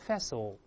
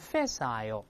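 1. 这个单词是美式发音。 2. 这个单词是英式发音。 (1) "美国人翻译更简单，变成facile" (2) "英国人都说facile"

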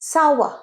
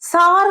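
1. এটি 'sowa'-এর মতো উচ্চারিত হয়, শেষে r নেই। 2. এটি ছোট 'sar' ধ্বনির মতো উচ্চারিত হয়। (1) "সার নয়, সাওয়া" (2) "অনেকে বলো সার, ভুল"

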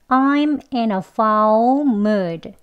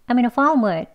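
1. 이 문장은 천천히 말해요. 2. 이 문장은 빨리 말해요. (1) "천천히 같이 해볼게요" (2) "빨리 또 두 번 해볼게요"

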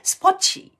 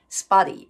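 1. tは強く破裂させ、chに近い音になります。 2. tは柔らかくdのような音になります。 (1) "イギリス人だったんで、スポッチ" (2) "アメリカ人だとね、スポッチではなくて、スパディになると思います。"

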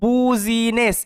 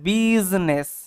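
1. প্রথম অক্ষরটা 'বু' এর মতো শোনায়। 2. প্রথম অক্ষরটা 'বি' এর মতো শোনায়। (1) "এটা কিন্তু বুজিনেস এরকম উচ্চারণ করবেন না" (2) "এটা বিজনেস"

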